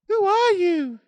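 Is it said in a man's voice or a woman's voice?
woman's voice. It is said in a put-on woman's voice.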